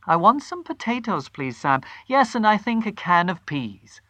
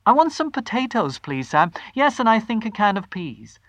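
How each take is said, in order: First: High, cheerful and easy; bright order. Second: High, bright and eager; rehearsed cheer. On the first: Wife ordering from the grocer, performed cheer. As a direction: sound perfectly ordinary. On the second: Wife rehearsing her shopping order, forced bright cheer. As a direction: practise sounding casually happy. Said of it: "the voice were coming out better". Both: A narrator's reading.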